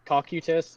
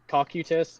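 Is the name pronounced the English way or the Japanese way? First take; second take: Japanese way; Japanese way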